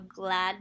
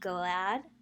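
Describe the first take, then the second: First: The g and l are blended directly. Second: An uh vowel splits the g and l.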